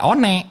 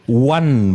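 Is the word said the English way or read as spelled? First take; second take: as spelled; English way. First: It is read letter by letter, like 'o-ne'. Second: It is said the English way, like 'wun'. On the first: The speaker calls it wrong. "Nggak one" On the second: The speaker calls it right. "one bacanya pronunciation-nya"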